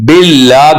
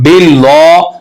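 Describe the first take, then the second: First: The 'lah' sound is kept light and thin. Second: The 'lah' sound is made heavy and full. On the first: The speaker calls it right. "बिल्ला करना है" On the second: The speaker calls it wrong. "इसको मोटा कर देते हैं, मोटा नहीं करना"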